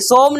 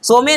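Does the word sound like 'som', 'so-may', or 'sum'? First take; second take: som; so-may. First: The vowel is a rounded 'o' sound. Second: A rounded 'o' with an extra final vowel. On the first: "सोम नहीं" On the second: "सोमे नहीं"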